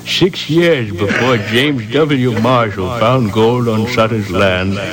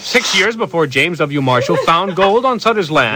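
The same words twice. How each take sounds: First: It is read at a calmer, unrushed pace. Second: It is read too fast, rushed.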